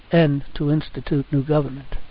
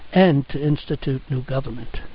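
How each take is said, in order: Both takes have the same delivery.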